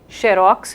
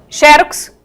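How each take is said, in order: First: The stress is on the last syllable. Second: The stress is on the first syllable. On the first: It is the Portuguese form of the word. "língua portuguesa" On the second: It is the foreign form of the word. "xerox com acento é estrangeirismo"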